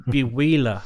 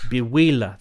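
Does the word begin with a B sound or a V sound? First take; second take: B sound; B sound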